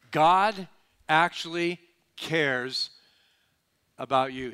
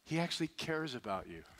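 First: God actually cares drawn out slow and loud; slow emphatic restatement. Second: Said in the usual way. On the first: Shown as a demonstration. Preacher pressing the point home to the congregation, slow and emphatic. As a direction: lean hard on God and cares, slowly.

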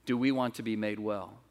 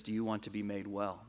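First: Said in the usual way. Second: Soft, quiet, tender question; Jesus asking gently. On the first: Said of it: "The question is". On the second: Acted. Jesus softly asking the sick man by the pool. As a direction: ask it softly, like an offered hand. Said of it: "Jesus turns to this man and says".

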